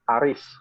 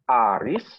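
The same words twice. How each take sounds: First: It is said as a plain call. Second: It is said with a surprised, questioning tone. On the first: The speaker is calling someone. "Manggil ya" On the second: The speaker is checking whether it is really that person. "Mengkonfirmasi ya, ... kaget mengkonfirmasi ya"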